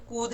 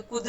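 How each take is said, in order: First: कूद with the ऊ drawn out; कूद long u; long u vowel. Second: कुद with a quick, short उ; short u vowel. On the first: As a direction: stretch the ऊ in कूद. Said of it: "ज़्यादा खींचेगा तो ऐसे आएगा". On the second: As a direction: keep the उ in कुद brief. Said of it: "छोटे ऊ की ... कुद हो जाएगा". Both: Shown as a demonstration.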